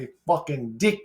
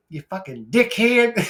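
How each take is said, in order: First: Said in the usual way. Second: Higher, louder mock Australian dickhead; Australian accent. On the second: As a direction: toss off the insult like an Aussie bloke. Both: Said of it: "my fucking Australia".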